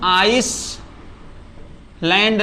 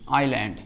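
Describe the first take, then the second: First: An s sound is pronounced before the land part. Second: No s sound is pronounced before the land part. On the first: The speaker calls it wrong. "इसको हम आइस लैंड नहीं कहेंगे" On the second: The speaker calls it right. "इसको हम आइलैंड बोलेंगे"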